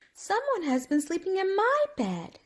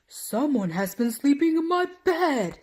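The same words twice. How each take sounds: First: It is said in a middle-sized voice. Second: It is said in a great big voice.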